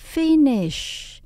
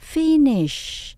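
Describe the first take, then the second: First: The word ends with a hushing sh sound. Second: The same.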